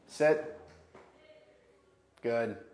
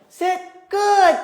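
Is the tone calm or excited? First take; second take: calm; excited. First: The words sound calm and neutral. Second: The words sound lively and excited. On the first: It keeps the dog settled. The speaker calls it right. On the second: It feeds the dog's overexcitement. The speaker calls it wrong.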